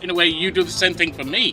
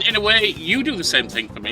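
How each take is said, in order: First: The word 'you' carries no main stress. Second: The word 'you' carries the main stress. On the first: The listener simply does this for the speaker. The speaker calls it wrong. "the emphasis is on the wrong word" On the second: The listener, too, does what something else does for the speaker. The speaker calls it right. "That should have been"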